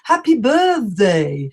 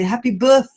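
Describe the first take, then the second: First: The th sounds like the one in mother. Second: The th pushes air out through the teeth. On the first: The speaker calls it wrong. "many of my students say, oh, happy birthday, but it's not correct" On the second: The speaker calls it right. "We must throw out the air"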